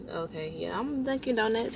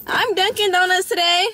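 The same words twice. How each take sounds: First: Said in the usual way. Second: Higher and louder, rising proud claim; playful proud declaration. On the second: Real, not acted. Vlogger proudly claiming she is Dunkin' today, loud and rising. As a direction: announce it like a proud boast.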